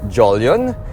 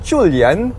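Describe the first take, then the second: First: The name is said the usual English way. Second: The name is said with Mandarin pronunciation. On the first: "the usual way" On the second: "it's pronounced Chulian in Mandarin"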